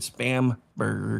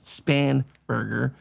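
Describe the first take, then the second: First: The name is said with an m sound. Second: The name is said with an n sound. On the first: This is a mocking nickname. "I pronounce it Spam Burger" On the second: This is the name's real pronunciation. "I know her name is actually pronounced Spanberger"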